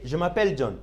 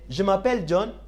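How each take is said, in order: First: The voice falls at the end. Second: The voice rises at the end. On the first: It states that the name is John. "The first one I will say, ... My name is John" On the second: It asks whether the name is John. "you need to raise up your voice ... Am I John? Is my name John?"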